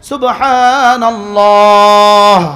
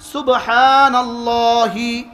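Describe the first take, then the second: First: The word ends with a bare breathy 'h'. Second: The word ends with a final 'hee' vowel. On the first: The reciter stops after the word. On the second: The word is joined to what follows.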